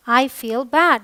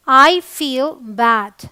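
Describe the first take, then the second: First: Said in the usual way. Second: Very slow, each word stretched out; slow teaching demo. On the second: Shown as a demonstration. Teacher modelling I feel bad for learners, very slow. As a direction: model it slowly so students can copy. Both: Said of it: "मुझे बुरा लगता है".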